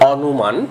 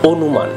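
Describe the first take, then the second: First: The first vowel is open, like aw. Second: The first vowel is closed, like o. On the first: This is how it is spelled. "আমরা লিখে থাকি" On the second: This is how it is actually spoken. "উচ্চারণ করতে হবে"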